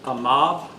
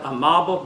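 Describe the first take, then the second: First: The name ends on 'b' with no 'l'. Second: The name ends with a full 'bl' sound. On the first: This is how the name is actually said. The speaker calls it right. "the correct pronunciation is Amab" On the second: This is how the spelling suggests it is said. The speaker calls it wrong. "it looks like Amable"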